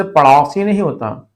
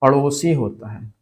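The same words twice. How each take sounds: First: पड़ौसी with au for o; wrong form पड़ौसी. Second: पड़ोसी with a pure o; correct form पड़ोसी. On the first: Teacher rejecting the misspelling, au in पड़ौसी. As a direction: open the middle vowel of पड़ौसी to au. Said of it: "इसी तरह से पड़ोसी नहीं". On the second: Teacher giving the correct neighbour word, pure o in पड़ोसी. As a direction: round the middle vowel of पड़ोसी. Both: Shown as a demonstration.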